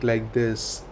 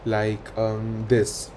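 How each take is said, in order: First: It flows without fillers or pauses. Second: It is broken by fillers and pauses. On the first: The speaker calls it right. "you have to speak like this, easy, natural" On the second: The speaker calls it wrong. "You should not be uh, speaking mm, um, like um, this"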